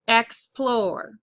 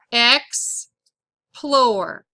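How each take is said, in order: First: Said in the usual way. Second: "Explore" broken as EX, long pause, PLORE; "Explore" pulled apart for spelling; syllable by syllable. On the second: Shown as a demonstration. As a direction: dictate "Explore" in two separated syllables. Dictating a word by syllables.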